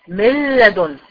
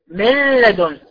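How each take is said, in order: No difference in how they are said.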